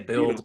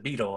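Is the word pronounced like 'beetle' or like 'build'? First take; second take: build; beetle. First: It sounds like 'build', with a short i. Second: It sounds like 'beetle', with a long ee. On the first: This is how the speaker says it. "I just say build" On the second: This is how others think it is pronounced. "Beetle is how they think they pronounce it"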